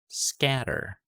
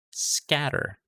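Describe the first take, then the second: No difference in how they are said.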